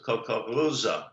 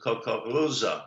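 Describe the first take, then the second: First: The R is pronounced with a guttural sound. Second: The same.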